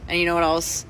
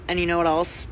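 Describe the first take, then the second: No difference in how they are said.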